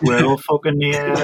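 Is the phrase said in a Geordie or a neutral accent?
Geordie. It is said in a Geordie accent.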